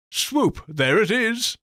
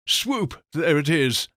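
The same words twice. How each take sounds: First: High, loud triumphant cheer; excited call. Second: Bright cheer on the swoop; cheery call. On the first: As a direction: shout it out in triumph. Demo swoop cheer. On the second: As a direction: call it out with a lift. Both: Acted.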